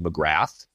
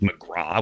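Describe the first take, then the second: First: The name ends in an 'ath' sound. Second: The name ends in an open 'aw' sound. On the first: The speaker calls it right. "when it's clearly McGrath" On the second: The speaker calls it wrong. "people pronounce it McGraw"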